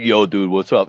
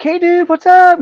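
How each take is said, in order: First: A lightly lowered, deeper-voiced dude greeting. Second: Much higher, louder, in a put-on surfer-dude voice; high dude greeting. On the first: Drummer greeting him in the trailer, hint of a deep voice. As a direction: drop the voice a little for the drummer. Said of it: "He's got this deep voice". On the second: Vince greeting him in the parking lot, high hyped dude voice. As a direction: pitch it way up like an excited rock guy.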